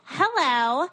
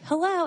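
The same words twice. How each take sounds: First: It is said as a mocking imitation of her. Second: It is said in her own normal voice.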